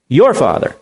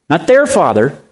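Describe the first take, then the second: First: "your"에 강세를 실어 말함; stress on your. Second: Said in the usual way. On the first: Shown as a demonstration. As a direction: lean on the word your. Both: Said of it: "Underline that word, your".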